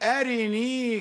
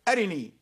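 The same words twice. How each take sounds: First: The vowel after the r is fully pronounced. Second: The vowel after the r is briefly snatched. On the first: "نحن نكمل الكسرة ونقول أرني" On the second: "هو يقول أرني"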